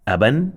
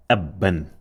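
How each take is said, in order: First: Said in the usual way. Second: "abban" with the b doubled; "abban" said as ab-ban, closing on the first b; emphasized double sound. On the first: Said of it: "Can you see that?". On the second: Shown as a demonstration. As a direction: hold the b in "abban" before releasing it. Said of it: "an emphasized sound also can be doubled".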